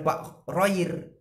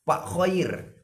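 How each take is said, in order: First: The name begins with an r sound. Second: The name begins with a rasping throat kh sound. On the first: The speaker calls it wrong. "bukan Pak Roir" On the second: The speaker calls it right. "Pak Khair, bukan Pak Roir"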